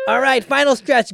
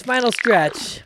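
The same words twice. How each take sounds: First: Hype announcement. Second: Drawn-out emphasis. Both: Real, not acted.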